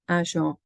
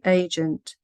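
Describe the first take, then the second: First: It is said with French pronunciation. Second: It is said with English pronunciation. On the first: "and then the target language" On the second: "the English pronunciation of the word"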